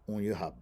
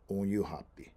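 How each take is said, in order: First: The word ends with a short b sound. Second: The word ends with a full pi syllable. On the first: "in fast speech, they can change that P I to a B" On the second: "that P I ending"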